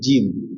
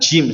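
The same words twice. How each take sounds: First: Breath is stopped, with no airflow heard. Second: Breath keeps flowing through the consonant. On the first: The speaker calls it right. "tapi jim ya" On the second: The speaker calls it wrong. "jangan jim salah ya"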